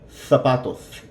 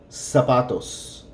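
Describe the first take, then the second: First: The first sound is a TH sound. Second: The first sound is an S sound.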